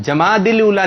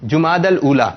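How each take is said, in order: First: "جماد الاولا" as jamaadil-oola, pitched higher; wrong pronunciation. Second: "جماد الاولا" as jumaadal-oola; correct pronunciation. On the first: Host rejecting contestant's answer, "جماد الاولا" mispronounced as jamaadil-oola. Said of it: "نہیں ہے". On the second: Host offering the right answer, "جماد الاولا" pronounced jumaadal-oola. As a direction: say "جماد الاولا" with short u in ju- and -dal. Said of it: "یہ درست لگ رہا ہے". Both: Shown as a demonstration.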